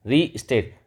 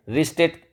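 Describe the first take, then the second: First: रीस्टेट said once with a falling, settled tune. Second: रीस्टेट lifted much higher, rising at the end; rising tune. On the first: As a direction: state रीस्टेट flatly, letting it drop at the end. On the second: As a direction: repeat रीस्टेट pitched up with a questioning rise. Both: Shown as a demonstration. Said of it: "देखो री और स्टेट दो word से बना".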